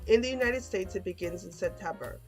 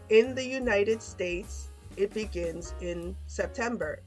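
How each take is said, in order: First: The sentence is spoken at normal speed. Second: The sentence is spoken slowly. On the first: "one time normal speed" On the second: "two times slow"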